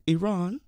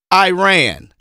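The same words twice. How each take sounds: First: "Iran" with an ee start and long AH; imitated "Iran", ee-RAHN, raised and soft; native pronunciation of Iran. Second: "Iran" as a loud, higher eye-RAN; imitated concession, "Iran" as eye-RAN, loud; American pronunciation of Iran. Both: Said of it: "you pronounced it wrong".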